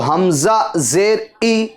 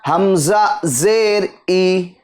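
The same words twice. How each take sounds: First: The final vowel ends with an abrupt jerk. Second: The final vowel ends smoothly without a jerk. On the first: The speaker calls it wrong. "झटका नहीं देंगे" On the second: The speaker calls it right. "बल्कि"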